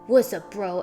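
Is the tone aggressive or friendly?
aggressive. It sounds tough and confrontational. A challenge that could start a fight. "And you puff up your chest"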